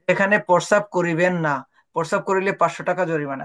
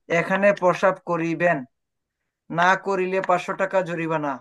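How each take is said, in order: First: The pause comes after the word না. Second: The pause comes before the word না.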